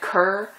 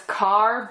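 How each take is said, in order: First: The name is said with the vowel of 'cur'. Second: The name is said with the vowel of 'car'. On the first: This follows the spelling of the name. "it's spelled K E R R, so I've always said Kerr" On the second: This is how others say the name. "I hear her name pronounced as Carr"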